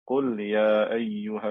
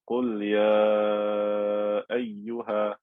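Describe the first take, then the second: First: The long vowel before the hamza is short. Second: The long vowel before the hamza is stretched. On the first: It follows another reading tradition. "I would not stretch this letter of med" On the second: It follows one reading tradition. "if I'm reading with Hafs, I would say"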